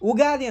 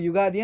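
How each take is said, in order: First: The word starts with a plain 'u' vowel. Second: The word starts with a 'y' sound. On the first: This is how it is said in Andhra Pradesh and Telangana. "Andhra ಪ್ರದೇಶದಲ್ಲಿ ಮತ್ತೆ ಈ ತೆಲಂಗಾಣದಲ್ಲಿ ಉಗಾದಿ ಅಂತ mention ಮಾಡ್ತಾರೆ" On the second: This is how it is said in Karnataka. "ನಮ್ಮ ಕರ್ನಾಟಕದಲ್ಲಿ ನಾವು ಯುಗಾದಿ ಅಂತ ಪ್ರೊನೌನ್ಸ್ ಮಾಡಿದ್ರೆ"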